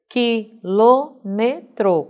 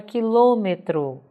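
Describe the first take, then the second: First: "Quilômetro" very slow, as qui, lô, me, tro; a pause after each syllable of "Quilômetro". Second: Said in the usual way. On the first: Shown as a demonstration. ("Quilômetro" silabado, bem devagar) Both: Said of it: "quatro sílabas".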